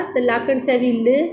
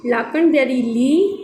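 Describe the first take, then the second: First: ल said clipped with a short i; short i vowel. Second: ली said with a long drawn ee and a rise; long ee vowel. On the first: Teacher contrasts sihari for students, ल kept short. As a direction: cut ल short, barely any vowel. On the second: Teacher shows bihari sound to students, ली held long. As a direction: stretch ली into a long ee. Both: Shown as a demonstration. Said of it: "अगर ते स्यारी हुजे हा".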